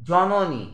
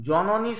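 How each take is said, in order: First: Said in the usual way. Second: জ-ন-নী split into three beats, a stress on each; each syllable of জ-ন-নী given its own push. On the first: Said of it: "জননী শব্দটি উচ্চারণ করতে গেলে". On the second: Shown as a demonstration. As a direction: tap out জ-ন-নী one syllable at a time. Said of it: "তিনবার ঝোঁক পড়ছে".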